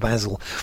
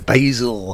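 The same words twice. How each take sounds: First: The name is said with a non-American pronunciation. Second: The name is said with an American pronunciation. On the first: The speaker calls it wrong. "not Basil" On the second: The speaker calls it right. "being an American, you'd have a voice like that"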